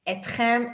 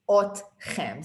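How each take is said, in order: First: The word begins with an 'e' vowel. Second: The word begins with an 'o' vowel. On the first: This is the formal form heard on news broadcasts. "Etchem is the right way to say it" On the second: This is the everyday form most people use. "everyone says otchem"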